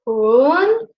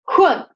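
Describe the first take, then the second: First: The pitch rises from low to high. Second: The pitch drops sharply from high to low. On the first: "the second tone, which goes from one to four, like this, up" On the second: "the fourth tone, and it goes like this, like jump down"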